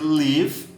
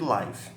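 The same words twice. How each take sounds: First: The vowel is short, as in 'give'. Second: The vowel is long, as in 'five'. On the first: It is the verb meaning to live. "O verbo a gente pronuncia live" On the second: It is the noun or adjective for a live broadcast. "E o substantivo, ou até adjetivo... a gente chama de live"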